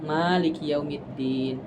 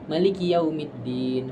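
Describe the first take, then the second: First: The first vowel "ma" is held long. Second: The first vowel "ma" is kept short. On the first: "Pertama dia panjang" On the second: "Yang kedua adalah pendek mimnya"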